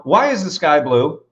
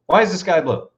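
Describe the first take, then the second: First: Slow question. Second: Said in the usual way. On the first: Shown as a demonstration. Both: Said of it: "if I ask you right now".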